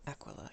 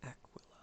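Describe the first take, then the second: First: Said in the usual way. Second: Breathy whisper, testing the name. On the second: Real, not acted. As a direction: whisper it to yourself. Sounding out a name.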